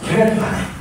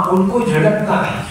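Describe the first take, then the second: First: Whispered warning, pitched higher; whispered emphasis. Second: Said in the usual way. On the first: Shown as a demonstration. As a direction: whisper it like a serious warning to children. Teacher repeats the rule. (سرگوشی میں تنبیہ)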